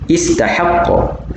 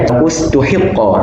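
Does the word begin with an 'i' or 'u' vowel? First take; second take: i; u. First: It starts with i and has a-vowels after t and h. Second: It starts with u, with u after t and i after h. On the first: "fathah huruf ta dan huruf ha dan juga memulakan kalimah dengan baris kasrah" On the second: "dhammah pada huruf ta dan kasrah pada huruf ha dan memulakan kalimah dengan dhammah"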